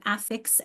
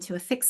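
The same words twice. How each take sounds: First: AFFIX with the first syllable stressed. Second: "to affix" with stress on "fix"; weak first vowel in "affix", stress the end; stress on second syllable. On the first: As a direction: hit the "af" in "affix", full short a. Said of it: "if you think of affix and to affix". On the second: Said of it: "think of affix and to affix something". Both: Shown as a demonstration.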